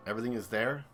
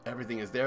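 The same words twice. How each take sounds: First: Said in the usual way. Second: Words pushed out through a burp; talking through a burp. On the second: Real, not acted. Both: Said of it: "Excuse me, I'm burping".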